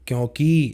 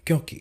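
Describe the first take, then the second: First: The final vowel is long. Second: The final vowel is short. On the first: The speaker calls it wrong. "क में बड़ी की मात्रा" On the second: The speaker calls it right. "तो क में छोटी की मात्रा है।"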